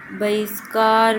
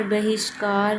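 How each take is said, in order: First: बहिष्कार said slowly, spelled out; slow demo. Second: Said in the usual way. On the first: Shown as a demonstration. Teacher sounding out बहिष्कार slowly for students. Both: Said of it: "बहिष्कार या बहिष्कार".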